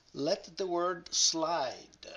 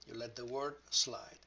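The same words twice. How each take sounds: First: Slow and higher, "let the word slide" drawn out smoothly; sliding slowly. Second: Said in the usual way. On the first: Shown as a demonstration.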